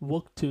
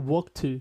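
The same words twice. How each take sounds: The two takes are said the same way.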